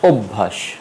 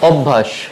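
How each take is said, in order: First: The first vowel is an 'o' sound. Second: The first vowel is not an 'o' sound. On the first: The speaker calls it right. "ও দিয়ে উচ্চারণ হবে অভ্যাস" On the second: The speaker calls it wrong. "এখানে শব্দটি দেখো অভ্যাস কিন্তু আসলে"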